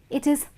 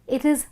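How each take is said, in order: The two takes are said the same way.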